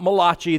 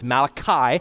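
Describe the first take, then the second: First: The name is said with an Italian-sounding pronunciation. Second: The name is said with an English pronunciation. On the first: The speaker calls it wrong. "it's not Malachi, the Italian prophet" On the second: The speaker calls it right. "it's Malachi"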